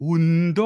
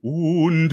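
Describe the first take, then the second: First: "Und" with a long held u; a stretched u before nd. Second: "Und" with a short clipped u; a brief u in "Und". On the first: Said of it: "ต่างกันปะ". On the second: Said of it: "ต่างกันปะกับ Und". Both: Shown as a demonstration.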